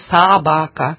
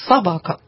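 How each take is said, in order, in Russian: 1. Первый безударный гласный полный и чёткий. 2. Первый безударный гласный редуцированный, звучит вполовину. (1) "мы не говорим «собака»" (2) "Мы говорим «собака». Половинка от «ы» звучит"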